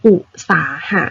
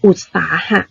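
First: อุตสาหะ said as u-sa-ha, no d closing the first syllable; missing d sound. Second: อุตสาหะ said ut-sa-ha, first syllable closed with d; d sound included. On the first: Teacher showing pupils' common mistake, first syllable left open without d. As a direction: drop the d from อุตสาหะ, giving u-sa-ha. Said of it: "แต่คำเนี้ยมันอ่านว่าอุด". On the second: Teacher correcting pupils' mistake, first syllable closed with d. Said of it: "นักเรียนอย่าลืมตัว". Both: Shown as a demonstration.

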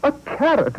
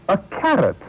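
First: Much higher, shrill disbelief; the carrot tops it all; mayor's outrage peaks higher; mounting outrage. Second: Indignant, louder cry; pompous mayor outraged. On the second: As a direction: disbelief at a carrot. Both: Acted.

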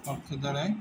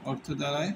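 The two takes are said the same way.

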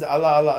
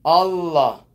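First: "Allah" with a short single l; mispronounced Allah. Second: "Allah" loud, with the l held long; corrected Allah. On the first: Teacher quoting a learner's mistake, short l in "Allah". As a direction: toss off "Allah" without holding the l. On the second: Teacher correcting whoever says it, long l in "Allah". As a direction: linger on the l in "Allah". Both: Shown as a demonstration. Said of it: "No, no, not Allah".

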